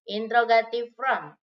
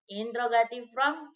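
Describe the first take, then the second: First: Louder heading. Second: Said in the usual way. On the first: Shown as a demonstration. Teacher repeats the heading twice.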